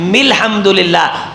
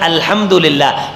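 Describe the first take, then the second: First: The 'a' is dropped and an m joins on. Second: The word begins with its own 'al' sound.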